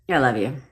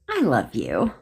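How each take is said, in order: First: It is said in a cold, odd tone. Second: It is said in a warm, sincere tone.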